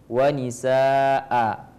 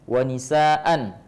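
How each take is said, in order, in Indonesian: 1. Kata ini berakhir dengan vokal panjang. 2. Kata ini berakhir dengan bunyi n. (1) "kalau kita berhenti wanisaa" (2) "kalau kita membaca wanisaan"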